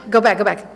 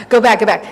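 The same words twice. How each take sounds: First: Said in the usual way. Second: "Go back, go back" called out louder; yelling at herself over her notes, louder; yelling at myself. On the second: Real, not acted. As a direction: snap "go back" at yourself, louder. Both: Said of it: "I'm yelling at myself".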